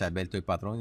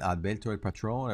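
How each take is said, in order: First: The name is said with a Spanish accent. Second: The name is said with an English accent. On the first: "in Spanish" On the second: "with the accent"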